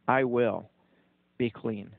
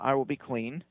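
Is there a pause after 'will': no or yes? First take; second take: yes; no. First: There is a break after will. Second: It runs on with no break after will.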